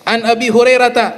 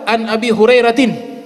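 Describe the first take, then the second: First: The last word ends in a plain 'ta' sound. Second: The last word ends in a 'tin' sound. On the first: The speaker calls it right. "harus an Abi Hurairata ... dibaca fathah" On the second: The speaker calls it wrong. "tidak boleh dibaca tin"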